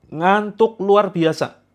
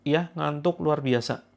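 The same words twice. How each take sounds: First: High, loud and slow; dramatic emphasis. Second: Said in the usual way. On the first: Acted. Healer stressing the symptom to listeners, loud and drawn out. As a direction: stretch out the drowsiness for effect.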